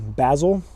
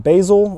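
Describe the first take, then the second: First: It is said in a British accent. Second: It is said in an American accent.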